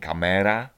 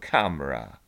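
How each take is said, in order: First: It is said with Polish-style sounds. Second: It is said with English-style sounds. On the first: The speaker calls it wrong. "Nie kamera" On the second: The speaker calls it right. "tylko camera"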